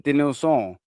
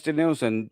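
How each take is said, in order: First: Light French accent on "Denilson"; "Denilson" as if it were a French name. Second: Said in the usual way. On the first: Real, not acted. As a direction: say "Denilson" Frenchly, nasal last syllable, final n dropped. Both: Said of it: "I've done a French accent".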